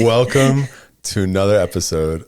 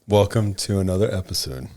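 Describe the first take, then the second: First: It is said with as much energy as possible. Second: It is said with moderate, somewhat subdued energy. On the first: The speaker calls it right. "That's about as lively as I'm gonna get" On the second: The speaker calls it wrong. "Am I lively enough? / I feel like it could be a little livelier"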